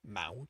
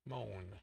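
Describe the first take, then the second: First: It sounds like mount, with a final T. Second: It sounds like moan, with no final T. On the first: The speaker calls it wrong. "Mount, as in a small mountain" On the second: The speaker calls it right. "The T is silent"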